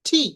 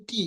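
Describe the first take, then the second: First: "টি" with a strongly aspirated t; correct letter name. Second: "টি" soft, with a plain unaspirated t; no puff of air on "টি"; common mispronunciation. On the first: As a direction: puff of air on "টি", like thi. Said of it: "এটার উচ্চারণ করবেন". ("টি" ঠি-র মতো হাওয়া দিয়ে) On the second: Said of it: "আমরা বলি টি". ("টি" সাধারণ ট দিয়ে) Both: Shown as a demonstration.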